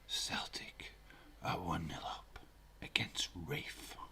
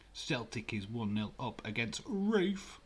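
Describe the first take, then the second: First: It is said in a whisper. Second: It is said in a normal speaking voice.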